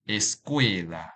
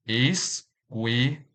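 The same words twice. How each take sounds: First: Said in the usual way. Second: Slow "Escuela" split into three, es, cue, la; syllable by syllable. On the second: Shown as a demonstration. Teacher showing learners the syllables, "Escuela" slowly broken apart. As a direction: say "Escuela" with a pause after each syllable. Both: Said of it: "This word has three syllables".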